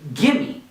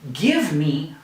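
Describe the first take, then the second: First: The two words are blended into one. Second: The two words are said separately and fully. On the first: "we usually say gimme" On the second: "Instead of saying give me"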